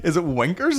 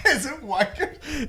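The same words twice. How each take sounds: First: "winkers" with a short I, like blinkers. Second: High, drawn-out "wankers" with an A vowel. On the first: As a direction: say "winkers" as a questioning alternative. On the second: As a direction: say "wankers" high and slow, laughing. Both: Shown as a demonstration. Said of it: "Is that what he's saying?".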